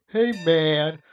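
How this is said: It is said in a relaxed, drawling way. A friendly, easygoing greeting. "the stoner"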